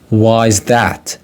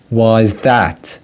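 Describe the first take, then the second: The two takes are said the same way.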